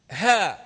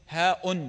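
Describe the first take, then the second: First: "ها" loud, on a long open vowel; "ها" left open with no glottal stop; hamza dropped. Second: "هاء" with a sounded glottal stop at the end; hamza pronounced. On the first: Teacher demonstrating the recited letter, hamza dropped. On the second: Teacher showing what was not recited, hamza pronounced. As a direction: voice the final hamza of "هاء" fully. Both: Shown as a demonstration. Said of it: "ما نطق الهمزة".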